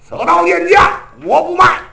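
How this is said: It is said fiercely and domineeringly. The hero still acts proud and overbearing. The speaker calls it wrong. "杨志得横啊"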